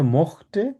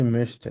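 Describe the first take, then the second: First: "mochte" with an open o and throaty ch; no umlaut. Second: "möchte" with a fronted ö vowel; with umlaut. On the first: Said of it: "এটার umlaut নেই". ("mochte", umlaut ছাড়া খোলা ও) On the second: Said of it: "একটা হচ্ছে möchten". ("möchte", umlaut দিয়ে ö উচ্চারণ) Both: Shown as a demonstration.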